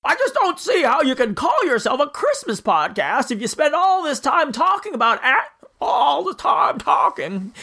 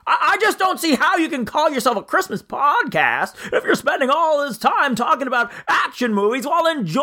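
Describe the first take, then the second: First: Higher, slower stammering Stewart drawl; George Bailey impression. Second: Higher, stammering James Stewart voice; George Bailey impression. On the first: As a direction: drag it out like Jimmy Stewart. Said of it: "The impression really comes and goes". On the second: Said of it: "I forgot how to do the voice".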